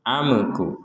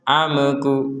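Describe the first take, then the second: First: The m sound bounces with an echo. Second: A short e vowel follows the m. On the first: "dibaca dengan mimnya ini dipantulkan" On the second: "terkesan ada harokat e di atasnya"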